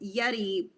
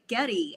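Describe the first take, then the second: First: The name begins with a Y sound. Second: The name begins with a hard G sound. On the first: "I've heard guys call him Yeti" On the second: "I also have heard them say Getty"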